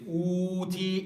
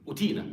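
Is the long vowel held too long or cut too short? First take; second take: too long; too short. First: The long vowel is stretched out far too long. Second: The long vowel is clipped short and rushed. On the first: "that's too long" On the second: "some people do it very quickly"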